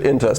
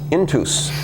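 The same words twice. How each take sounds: First: It uses a New England style pronunciation. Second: It uses a church Latin style pronunciation. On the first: This is how the company owners say it. "we pronounce it intus. Maybe it's a New England way"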